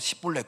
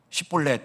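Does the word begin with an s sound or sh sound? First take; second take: s; sh. First: The word begins with a plain s sound. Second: The word begins with a sh sound. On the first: The speaker is from Ephraim. The speaker calls it wrong. "십볼렛을 못하고 십볼렛 그러면 에브라임 사람이다" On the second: The speaker is not from Ephraim. The speaker calls it right. "십볼렛 해봐라 했는데"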